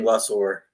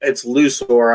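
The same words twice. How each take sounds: First: Mistaken Lusor with a short "uh": LUH-sor; first vowel of Lusor as in "luck". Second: First syllable of Lusor rhymes with "loo"; Lusor as LOO-sor. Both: Shown as a demonstration. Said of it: "I keep saying Lusor".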